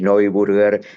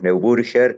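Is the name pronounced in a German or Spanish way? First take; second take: German; Spanish. First: The name is said with German sounds. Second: The name is said with Spanish sounds. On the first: This is how it is said in the surname's country of origin. "ir al origen alemán del apellido" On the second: This is how it is said locally in Argentina. "Estamos en Argentina, lo pronunciamos Neuburger"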